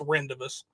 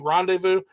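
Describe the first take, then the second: First: It is sounded out as it is spelled. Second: It is said the standard French-like way. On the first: The speaker calls it wrong. "I sounded out it's rendezvous" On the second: The speaker calls it right. "I know it's supposed to be rendezvous"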